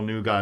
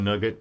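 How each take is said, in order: First: The word ends in an open 'gah' sound. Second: The word ends in a closed 'get' sound. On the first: This is how the listeners say it. "So you guys don't don't call Nuga" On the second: This is how it is said in Northern Ireland. "in Northern Ireland, we would always call it nugget"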